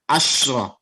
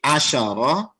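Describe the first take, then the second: First: No vowel follows the sh sound. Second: A short vowel follows the sh sound. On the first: "shinnya yang disukunkan" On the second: "shinnya di, difathahkan"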